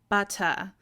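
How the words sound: The middle t is a crisp, clear t sound. "a U K English speaker might say butter, they really enunciate that t sound"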